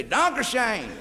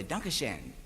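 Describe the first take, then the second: First: "Dankeschön" said high and drawn out the southern German way, laughing; mock southern German "Dankeschön", raised high with a laugh; southern German accent. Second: "Dankeschön" said low, soft and clipped the northern German way; mock northern German "Dankeschön", dropped low and quiet; northern German accent. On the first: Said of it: "Southern Germany, they say". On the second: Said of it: "they talk like New Yorkers".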